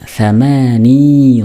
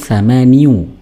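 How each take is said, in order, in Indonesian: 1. Kata ini berakhir dengan 'i' pendek biasa. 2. Kata ini berakhir dengan suku kata 'iyu' penuh. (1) "mensukunkan huruf ya-nya" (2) "aslinya itu thamaniu ... berat pengucapannya"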